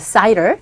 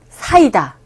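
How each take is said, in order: First: It is said as English two-syllable cider. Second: It is said as Korean three-syllable saida. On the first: "여기서는 cider이라고 발음합니다" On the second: "우리나라 발음도 사이다"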